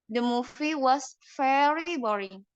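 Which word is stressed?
very. The stress falls on the word very. "dan yang kedua itu di kata very"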